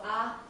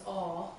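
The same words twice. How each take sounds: First: "a" as a short unaccented vowel; short, open "a". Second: "a" as a long "aw" sound; long, rounded "a", like "aw"; lengthened vowel. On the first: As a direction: say "a" short, without lengthening. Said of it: "it also changes the sound". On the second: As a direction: draw "a" out into "aw". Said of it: "It lengthens the vowel". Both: Shown as a demonstration.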